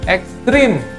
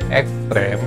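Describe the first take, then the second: First: The last syllable has an i vowel. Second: The last syllable has an e vowel. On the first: The speaker calls it wrong. "kita sering mengucapkan salah atau ditulis juga salah pakai i" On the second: The speaker calls it right. "pengucapan dari kata ekstrem"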